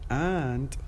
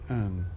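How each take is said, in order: First: The word ends with a clear d sound. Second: The word ends without any d sound. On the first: "instead of saying and" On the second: "we say an, and we drop the this out"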